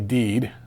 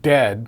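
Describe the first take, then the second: First: The vowel is long, as in seed. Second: The vowel is short, as in bed. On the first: "they say deed" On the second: "instead of saying dead"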